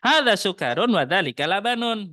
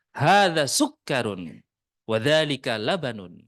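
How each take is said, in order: First: Louder, higher exaggerated Arabic accent; overdone Arabic accent. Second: Light Arabic accent. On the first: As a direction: ham up the Arabic accent too much. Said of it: "bukan begitu juga". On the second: Shown as a demonstration. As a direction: say it with a touch of Arabic accent, unhurried.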